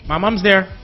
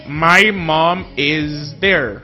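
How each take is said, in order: First: The words run together like one word. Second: Each word is said separately and fully.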